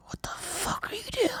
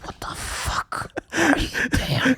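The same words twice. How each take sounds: First: High, hushed hiss of disbelief; imitated urgent whisper; retold appalled whisper. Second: Slow, spaced-out appalled whisper; imitated aghast friend, very slow and whispery; retold drawn-out whisper. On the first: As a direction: whisper it as an aghast friend. Retells friend's appalled question. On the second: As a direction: stretch each word in hushed disbelief. Repeats the appalled question more slowly.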